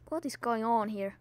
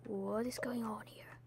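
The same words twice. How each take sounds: First: Said in the usual way. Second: Hushed whispered question; a soft, confused whisper. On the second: Real, not acted. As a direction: whisper it, bewildered. Whispered repeat.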